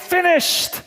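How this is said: It is said in a triumphant, victorious tone. The task has been successfully accomplished. The speaker calls it right. "It's a cry of victory"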